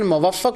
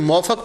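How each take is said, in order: First: The name starts 'mu-wa' with a doubled f. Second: The name starts with a 'mau' glide sound. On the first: This is the original pronunciation. "असल में उसकी pronunciation मुवफ़्फ़क़ होती है" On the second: This is how people commonly read it. "जिनको हम अली बिन मौफ़क़ पढ़ते हैं ना"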